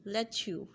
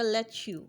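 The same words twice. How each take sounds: First: "let you" run together so it sounds like "letchu"; blended let you. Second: Said in the usual way. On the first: Shown as a demonstration. Teacher showing learners the blended let you. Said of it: "यहाँ चे की आवाज़ बन जाएगी". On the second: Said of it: "जब हम इन्हें मिला के पढ़ेंगे".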